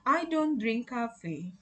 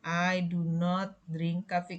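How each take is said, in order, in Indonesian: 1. Kata do not dikontraksi menjadi don't. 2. Kata do not diucapkan secara lengkap. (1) "ketika diucapkan atau diomongkan, kita sering pakai singkatannya" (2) "Kalau nulisnya biasanya versinya lengkap begini"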